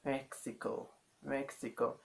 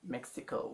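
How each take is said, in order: First: "Mexico" with the M barely pronounced; softened M. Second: "Mexico" with a firm closed-lip M; English pronunciation. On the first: Teacher showing what we would say, softened M. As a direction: let the lips stay loose on the first sound of "Mexico". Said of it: "like you don't pronounce the letter M". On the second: Teacher showing what they wouldn't say, English pronunciation. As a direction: press the lips shut to start "Mexico". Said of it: "We w-, wouldn't say". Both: Shown as a demonstration.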